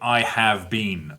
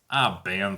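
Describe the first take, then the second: First: Every word, including 'have', is said in full. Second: The 'have' is reduced almost to nothing. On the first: "What they're saying is" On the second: "it might sound like I been"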